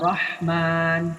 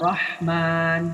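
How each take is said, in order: First: The a vowel is a clear open a. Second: The a vowel is a clear open a.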